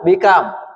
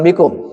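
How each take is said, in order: First: The vowel after the k is a. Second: The vowel after the k is u. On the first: The speaker calls it right. "Menanyakan berapa?" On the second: The speaker calls it wrong. "bukan bikum"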